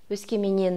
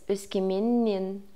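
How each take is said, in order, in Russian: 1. «Н» перед окончанием краткое, одинарное. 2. «Н» перед окончанием долгое, удвоенное. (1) "«Өскеменнен» емес" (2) "вторая «н» никуда не деется, от окончания удваивается, и при произношении это тоже заметно"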